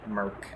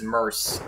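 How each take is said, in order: First: The C is pronounced like a K sound. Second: The C is pronounced like an S sound. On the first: "if it was spelled with a K, I would call it Merc" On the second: "I'm pronouncing it like an S"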